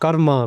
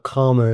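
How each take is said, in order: First: It is said with the original, native pronunciation. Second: It is said with an everyday anglicized pronunciation. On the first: This is the proper way to say it. "We got to say it properly" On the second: This is how most other people say it. "if you're, uh, you know, anybody else"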